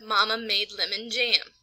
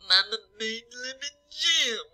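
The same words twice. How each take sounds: First: The voice sounds normal, with clear nasal sounds. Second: The voice sounds stuffy, with too little nasal sound.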